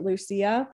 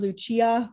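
First: The name is said with non-Italian pronunciation. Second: The name is said with Italian pronunciation. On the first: This is how the speaker chooses to say the name. "I'm pronouncing it Lucia" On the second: This is how others say the name. "They call her Lucia"

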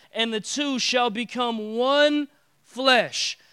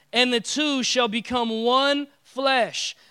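Both takes have the same delivery.

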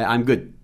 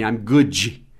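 First: The final D is held without releasing air. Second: The final D is released with a puff of air. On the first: The speaker calls it right. "Segure o D aí. É o D não solto" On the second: The speaker calls it wrong. "você não vai falar assim"

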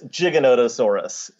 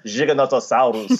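First: It is said with an American English pronunciation. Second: It is said with an Argentine Spanish pronunciation. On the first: "the way that most American paleontologists would say it" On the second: "rather than"

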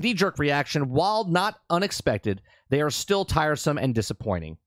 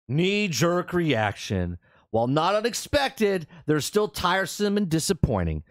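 First: It is read in the speaker's plain voice. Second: It is read imitating how the developer would talk.

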